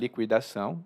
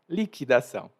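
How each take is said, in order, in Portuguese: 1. A palavra tem a pronúncia mais antiga. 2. A palavra tem a pronúncia nova, atual. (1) "Algumas pessoas mais antigas vão pronunciar liquidação, e essa era a minha pronúncia" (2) "Então agora eu falo liquidação"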